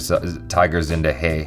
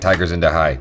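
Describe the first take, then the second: First: The last word does not sound like 'hi'. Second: The last word sounds like English 'hi'. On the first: The speaker calls it right. "It's probably Tiger Zinda Hai" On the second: The speaker calls it wrong. "I like saying Tiger Zinda Hai. Like, hi"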